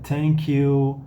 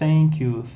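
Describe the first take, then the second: First: Thank begins with a hard t sound. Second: Thank begins with a soft th sound. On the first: "vai se transformar em T" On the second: "a versão não vozeada dele"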